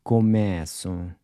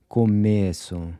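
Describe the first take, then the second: First: Começo with an open E, like the E in air; começo, mouth opened wide on the E. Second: Começo with a closed E in the middle; começo, E kept tight and short. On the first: Teacher models Portuguese começo with an open E. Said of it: "open E's in purple are pronounced". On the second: Teacher models Portuguese começo with a closed E. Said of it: "closed E". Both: Shown as a demonstration.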